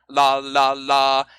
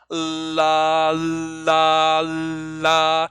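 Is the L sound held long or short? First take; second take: short; long. First: The repetitions are quick with a short L. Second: The repetitions are slow with a long L.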